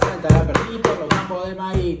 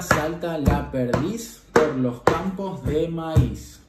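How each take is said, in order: First: The phrase is spoken at a fast pace. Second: The phrase is spoken at a slow pace.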